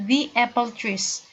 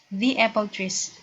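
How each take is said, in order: The two takes are said the same way.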